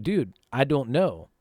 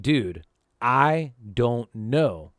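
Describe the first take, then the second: First: Said in the usual way. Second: Drawn-out, slowed-down denial; slow helpless repeat. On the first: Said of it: "I'm like". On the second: Retold or imitated. A scared teen repeats himself slowly to the angry stranger. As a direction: stretch each word out, worn down. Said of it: "And I'm like".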